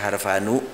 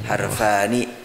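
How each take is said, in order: First: The final syllable ends with a u vowel. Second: The final syllable ends with an i vowel. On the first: The speaker calls it wrong. "jangan dibaca harfanu" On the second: The speaker calls it right.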